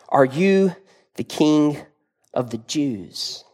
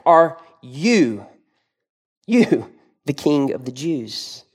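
First: It is read in a plain, neutral tone. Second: It is said sarcastically, stressing "you".

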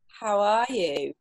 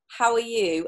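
First: It is asked in a slower, earnest, caring voice. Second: It is asked as a quick, casual greeting. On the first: A sincere question about real wellbeing. "In that voice" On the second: A routine social greeting. "I always ask"

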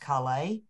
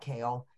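First: It sounds different from the vegetable kale. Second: It sounds like the vegetable kale. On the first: This is the company name. "it's pronounced Kale" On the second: This is the ordinary vegetable word. "although it's spelled like kale"

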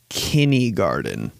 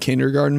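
First: The first part is pronounced kinny, without a d. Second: The first part is pronounced kinder, with a d. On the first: The speaker calls it wrong. "He goes, kindergarten. He literally says that" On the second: The speaker calls it right. "instead of saying kindergarten"

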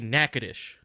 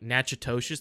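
First: The name is said in a shortened local form. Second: The name is read out following its spelling. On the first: The speaker calls it right. "but we say Natchitoches" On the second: The speaker calls it wrong. "it's phonetically said like Natchitoches"

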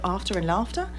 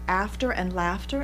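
First: It is said in an English accent. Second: It is said in an American accent. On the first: "instead of" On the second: "that's why we say"

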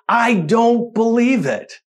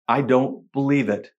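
First: It sounds excited and delighted. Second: It sounds fearful and shaken. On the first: The speaker is amazed at their good fortune. "It's an expression of utter disbelief at the good fortune" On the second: The speaker is afraid something evil is happening. "That one phrase can have two completely different meanings, can't it? Listen to it again"

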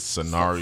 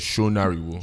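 First: The name is said with an Americanized pronunciation. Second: The name is said with a Yoruba pronunciation.

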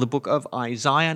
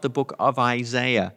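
First: Isaiah is said in an Australian accent. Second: Isaiah is said in an American accent. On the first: The speaker calls it right. "the Australian form of English" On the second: The speaker calls it wrong. "our American cousins sadly mispronounce"

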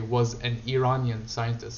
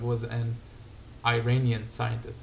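First: Iranian is said with an Arabic-style pronunciation. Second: Iranian is said with an English-style pronunciation. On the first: "I'm tempted to say" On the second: "instead of"

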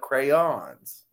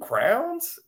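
First: The word is said as two syllables. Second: The word is said as one syllable. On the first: This is how the speaker says it. The speaker calls it right. "no, they're Crayola crayons" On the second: This is how someone from Ohio says it. The speaker calls it wrong. "she calls them crowns"

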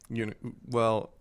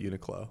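First: The name is said with Japanese-style syllables. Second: The name is said with American-style sounds. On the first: This is the technically correct name. "Uniqlo, technically" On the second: This is how Americans casually say the name. "all of the American people in Japan just called it Uniqlo"

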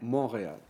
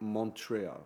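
First: The name is said with French pronunciation. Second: The name is said with English pronunciation. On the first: "French way is Montreal" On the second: "But people say Montreal. / Maybe English part"

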